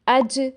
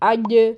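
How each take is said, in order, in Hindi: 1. j में हवा सरसराती है। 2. j गले के बहुत पीछे से बनता है। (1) "ज़बान के अगले हिस्से को ऊपर वाले दांतों के साथ टच करते हैं ... हवा निकलती महसूस होती है" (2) "जीम के मखरज को बहुत पीछे ले जाते हैं"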